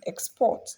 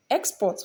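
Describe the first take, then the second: First: "export" stressed on PORT; stress on second syllable. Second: "export" stressed on EX; stress on first syllable. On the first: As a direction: say "export" as a verb, leaning on "port". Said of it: "for verb". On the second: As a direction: say "export" as a noun, leaning on "ex". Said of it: "for noun". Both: Shown as a demonstration.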